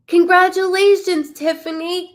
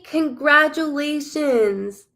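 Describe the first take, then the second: First: Gasp, then burst out high and loud; thrilled congratulations to the lucky viewer; host congratulates the drawn winner, gasping and excited. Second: Host repeats it to the winner, slowly; slow congratulations. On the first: Winner's name just drawn. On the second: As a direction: stretch every syllable out slowly. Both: Real, not acted.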